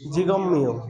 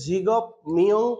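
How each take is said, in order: First: The first word ends with an m sound. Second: The first word ends with a p sound. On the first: The speaker calls it right. "মিয়মের পূর্বে যদি ভিউব থাকে তাহলে ভিউবটা মিয়ম পড়া লাগে" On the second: The speaker calls it wrong. "জিগপ মিয়ং পড়া যাবে না"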